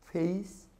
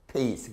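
First: 페이스 said as face, airy F; labiodental F. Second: 페이스 said as pace, dropping; bilabial P. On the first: Teacher repeating the contrast, 페이스 with an F. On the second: Teacher repeating the contrast, 페이스 with a P. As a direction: begin 페이스 with both lips shut. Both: Shown as a demonstration. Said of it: "다른 발음이죠".

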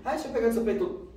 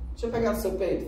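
First: Put-on high, fast boyish nagging; teenage boy repeating himself quickly; pushy boy, insisting. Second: Put-on high, boyish pleading; a kid begging, voiced high; lightly voiced teenage boy nagging; pushy boy. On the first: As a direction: rattle it off like a pestering kid. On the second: Boy asking to grab her.

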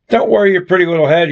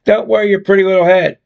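First: Said in the usual way. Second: Mocking imitation with a touch of disdain; emphatic disdain. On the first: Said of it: "imitates his words". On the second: A narrator's reading. Jess mimics her boyfriend's brush-off, emphatic and disdainful. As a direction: echo his words, leaning on them with mild scorn. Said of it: "imitates his words with emphasis and disdain".

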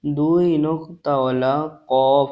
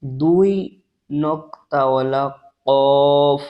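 First: দুই নক্তাওয়ালা কফ repeated a bit slower, tongue root on the palate; second slow demo of qaf; slower repeat of letter. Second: দুই নক্তাওয়ালা কফ said very slowly, কফ from the tongue root on the palate; first slow demo of qaf; slow model letter. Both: Shown as a demonstration. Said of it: "উপর তালুর সাথে লাগিয়ে উচ্চারিত হয়".

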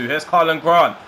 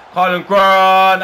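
First: Higher and louder calling the run; rising commentator call of the name; excited call. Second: Much higher and louder, slow drawn-out yell of the name; goal shout. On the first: Breakaway building to goal. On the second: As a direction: scream the scorer's name as it goes in. Goal scored, shouting scorer's name. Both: Real, not acted.

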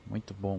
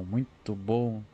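First: Said in the usual way. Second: Very slow, stretching out the bom; drawn-out praise. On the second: Real, not acted. Streamer relishing the armor upgrade, said very slowly. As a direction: savor each word, dragging it out.

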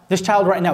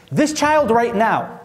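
First: Said in the usual way. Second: Slow emphasis. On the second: Shown as a demonstration. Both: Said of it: "repeated for emphasis".

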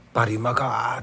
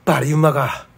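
First: バリうまかー with the final か stretched long; drawn-out dialect. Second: バリうまか called out loud as hearty Nagasaki dialect; Nagasaki dialect shout. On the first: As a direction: savour バリうまかー slowly in Nagasaki dialect. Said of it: "九州弁というか、長崎弁というか". (語尾を伸ばして長崎弁で) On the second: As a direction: boom out バリうまか like a local. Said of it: "バリっていうのは". (長崎弁で力強く叫ぶ) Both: Shown as a demonstration.

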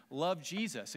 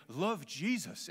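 First: Plain homespun Southern delivery; Southern accent. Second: Put-on slow, weighty Welsh accent. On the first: Shown as a demonstration. Preacher showing his congregation his unconvincing delivery, Southern accent. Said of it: "Love Jesus, y'all". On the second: Preacher imitating his Welsh seminary mentor, Welsh accent. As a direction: draw it out like a profound Welshman. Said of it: "it comes with a Welsh accent".

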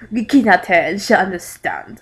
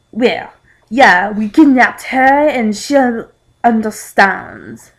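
First: Mock French accent, everyday pitch; lightly sarcastic French voice. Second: Slow, louder mock French accent; hammy French accent with sarcasm; sarcastic French accent. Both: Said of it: "a French man said sarcastically".

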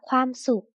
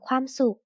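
First: ความสุข sounded out syllable by syllable; reading pronunciation. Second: Said in the usual way. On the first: Shown as a demonstration. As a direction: read ความสุข carefully as khwam, suk. (อ่าน ความสุข แยกทีละพยางค์) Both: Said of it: "อ่านว่า".

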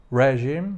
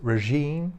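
First: "regime" with stress on the first syllable, REH-zheem; imitating a Polish-accented "regime", first syllable stressed; wrong Polish stress. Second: "regime" with stress on the second syllable, reh-ZHEEM; correct stress. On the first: Polish reviewer mimicking the MEP's misplaced stress. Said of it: "Patryk Jaki mówi". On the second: Shown as a demonstration. Reviewer showing the right stress after the mistake.

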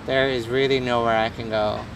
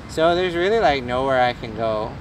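First: Put-on low, level American accent. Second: Put-on valley girl accent. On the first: Streamer with nowhere to go, lower and level put-on American accent. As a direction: restate it evenly in lower-pitched American. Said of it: "it's a decent American accent". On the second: Streamer teased about his accent, playing up valley-girl American. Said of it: "Sounds like a valley girl".

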